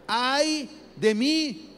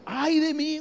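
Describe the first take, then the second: First: Slow, drawn-out cry of dread; long, slow frightened wail; frightened lament. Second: High, loud frightened outcry; higher, louder startled wail; cry of lament. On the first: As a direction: stretch out the wail like a man undone. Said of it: "exclamar, hermanos, es gritar como asustado". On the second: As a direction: cry out in sudden terror. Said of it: "Un, un grito de lamento". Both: Acted.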